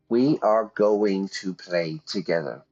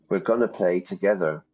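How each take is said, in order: First: Every word is said in full, unreduced. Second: The words are contracted and reduced to 'gonna'. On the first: The speaker calls it wrong. "But we don't say it like that" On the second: The speaker calls it right. "We say, yeah, we're gonna play"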